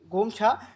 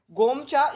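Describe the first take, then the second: First: गोमछा with a breathy aspirated छ; गोमछा said with aspirated chh; aspirated gomchha. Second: गोमचा with a plain unaspirated च; unaspirated gomcha. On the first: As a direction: say गोमछा with a puff of air on the chh. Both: Shown as a demonstration. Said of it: "गोमचा या गोमछा भी बोलते हैं".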